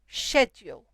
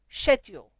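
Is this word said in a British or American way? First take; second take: British; British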